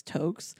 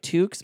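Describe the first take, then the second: First: "toques" said as "tokes"; "toques" rhyming with "jokes"; long O pronunciation. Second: "toques" said as "tooks", long OO; "toques" with a long OO sound; OO pronunciation. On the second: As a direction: say "toques" with the vowel of "too". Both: Shown as a demonstration. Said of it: "or, like, toques".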